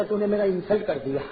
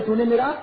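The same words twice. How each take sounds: First: Said in the usual way. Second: Indignant, louder repeat of the complaint; a hurt young man's louder comeback; offended louder retort. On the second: Retold or imitated. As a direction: bark back the insult, mock-offended. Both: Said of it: "کسی کو زور میں کہا".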